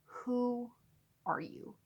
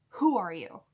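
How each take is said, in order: First: Drawn-out "who", dropped "are you"; deliberate emphasis. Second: Loud, falling "Who are you"; forceful suspicious "Who are you"; demanding challenge. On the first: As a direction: split it slowly: "who", pause, "are you". Repeats the challenge word by word. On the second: Retold suspicious challenge to the texter. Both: Retold or imitated.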